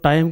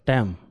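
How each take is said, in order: First: The vowel is a full 'eye' diphthong. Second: The vowel is a flat 'a' as in cat. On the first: The speaker calls it right. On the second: The speaker calls it wrong.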